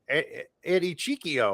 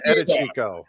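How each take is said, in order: First: The name is split as Eddie Chiquio. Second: The name is said in full as Edichico. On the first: The speaker calls it wrong. "Somebody will say like" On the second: The speaker calls it right. "who are you talking about?"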